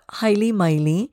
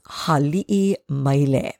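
First: The first word has two syllables, no glottal break. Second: The first word has three syllables with a glottal break. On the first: The speaker calls it wrong. "It is not Haili Maile" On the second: The speaker calls it right. "It is Hali'i Maile"

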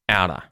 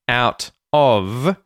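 First: The final V sound is dropped. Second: The final V sound is pronounced.

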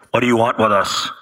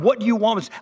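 First: It is said in a spooky, airy voice. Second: It is said in a plain voice.

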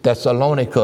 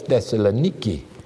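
First: The name ends with a 'kuh' sound. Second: The name ends with a 'kee' sound. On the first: This is the form some people elsewhere use. "as some people would say" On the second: This is the form used in the place itself. "I like the way they pronounce it over there"

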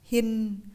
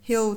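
First: The word ends with an N-like sound. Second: The word ends with a dark L sound. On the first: The speaker calls it wrong. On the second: The speaker calls it right.

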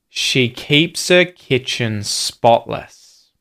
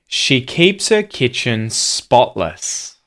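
Both takes have the same delivery.

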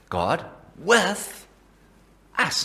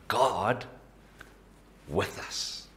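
First: The stress is on with us. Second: The stress is on God.

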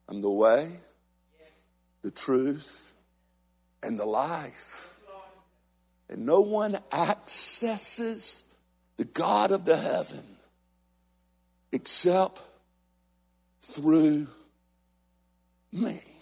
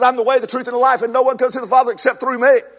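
First: It is said at a slower pace. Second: It is said at a quicker pace.

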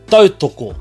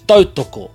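No difference in how they are said.

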